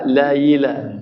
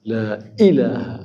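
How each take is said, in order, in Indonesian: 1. Hamzah diubah menjadi bunyi y. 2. Hamzah diucapkan sebagai hentian glotis yang jelas. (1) "يحولها إلى ياء" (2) "haqqaq al-hamzah"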